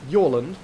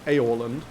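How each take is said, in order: First: The name begins with a Y sound. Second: The name begins with a vowel sound. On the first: The speaker calls it right. "His name is very definitely Yorland" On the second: The speaker calls it wrong. "not Aorland"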